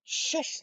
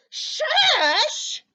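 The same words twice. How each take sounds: First: Soft, whispered SHUSH; airy, gentle hushing; hushed shush. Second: Loud, high, incredulous SHUSH; indignant shriek rising at the end; angry yell. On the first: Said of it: "they say". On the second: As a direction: throw the shush back as an outraged question. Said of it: "and he's yelling". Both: A narrator's reading.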